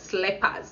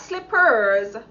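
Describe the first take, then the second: First: It is said with a Jamaican patois pronunciation. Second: It is said with a standard English pronunciation. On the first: "In Jamaican patois, we just say slippers" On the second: "not slippers"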